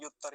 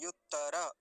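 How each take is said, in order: First: युत्तर ending on a bare r; युत्तर said as "yuttar", no final a; wrong form. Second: युत्तर said "yuttara" with the last a sounded; युत्तर with an open, full ending; full final r. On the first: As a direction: clip the last vowel off युत्तर. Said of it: "युत्तर नहीं". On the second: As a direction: give the र of युत्तर its whole vowel. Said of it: "रेफ को पूरा रखेंगे". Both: Shown as a demonstration.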